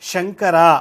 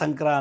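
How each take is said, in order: First: It begins with 'sh' and keeps every syllable. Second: It begins with 's' and drops a syllable. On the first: The speaker calls it right. "ಶಂಕರ ಅನ್ನೋ ಬದಲು" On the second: The speaker calls it wrong. "ಸಂಕ್ರ ಸಂಕ್ರ ಅಂತಾರೆ"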